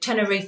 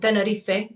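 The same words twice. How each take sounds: First: The name is pronounced the English way. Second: The name is pronounced the Spanish way. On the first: The speaker calls it wrong. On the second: The speaker calls it right.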